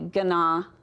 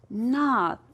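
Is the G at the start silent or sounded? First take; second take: sounded; silent. First: The word begins with a sounded G. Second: The word begins without a G sound. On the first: The speaker calls it wrong. "Are you wanting to say gana? ... It's not gana" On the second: The speaker calls it right. "it's a silent letter. It just says gnaw"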